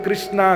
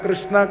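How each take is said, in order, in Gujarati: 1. નામનો અંત લાંબા 'aa' સ્વરથી થાય છે. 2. નામનો અંત લાંબા 'aa' સ્વરથી થાય છે.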